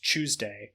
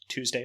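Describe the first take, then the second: First: The word begins with a 'ch' sound. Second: The word begins with a plain 't' sound.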